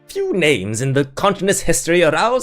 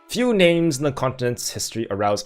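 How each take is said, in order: First: It is read in a put-on character voice. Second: It is read in the speaker's ordinary voice. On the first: The speaker calls it right. "this is the voice that I canonically give him" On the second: The speaker calls it wrong. "Wait, I was gonna do the voice"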